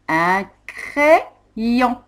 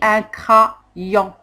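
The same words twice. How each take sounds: First: The first vowel sounds like 'eh' before 'yon'. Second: The first vowel sounds like 'ah' before 'yon'. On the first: The speaker calls it right. "on dit un crayon" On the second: The speaker calls it wrong. "On n'a pas dit un crayon"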